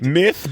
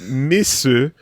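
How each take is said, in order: First: Said as one English syllable. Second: Said in Japanese style with an added final vowel. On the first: "myth becomes misu" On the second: "myth becomes misu"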